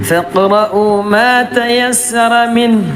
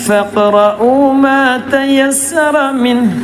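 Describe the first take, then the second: The two takes are said the same way.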